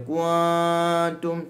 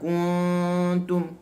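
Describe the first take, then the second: First: The n sound is plain, without deep nasal hum. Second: The n sound hums deep in the nose. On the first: The speaker calls it wrong. "kita tak boleh baca kuntum, tak" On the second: The speaker calls it right. "dia masuk pekat dalam hidung"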